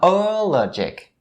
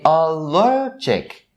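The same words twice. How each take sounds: First: The stress is on the first syllable. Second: The stress is on the second syllable. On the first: The speaker calls it wrong. "not allergic" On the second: The speaker calls it right. "the primary stress is upon the second syllable. So you say allergic"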